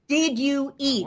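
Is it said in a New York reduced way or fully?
fully. Every word is said fully and clearly.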